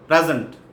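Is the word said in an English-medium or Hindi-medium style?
English-medium. It is said in an English-medium school accent. The speaker sounds more impressive. The speaker calls it right. "a smart student of English medium school"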